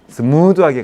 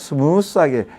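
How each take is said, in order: First: The word smooth ends with a d sound. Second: The word smooth ends with an s sound. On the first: The speaker calls it right. "스무드라고 얘기하던데" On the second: The speaker calls it wrong. "발음이 스무스가 아니죠"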